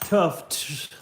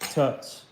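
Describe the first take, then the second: First: The name is said with the f sound. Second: The name is said without the f sound. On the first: "Can I say Tufts?" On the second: "Can I say tuts?"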